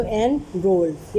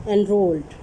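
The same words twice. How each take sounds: First: "and rolled" in two beats, en, then rolled; split into syllables. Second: Said in the usual way. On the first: Shown as a demonstration. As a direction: pause between the syllables of "and rolled". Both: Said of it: "ये टू syllable बन गए".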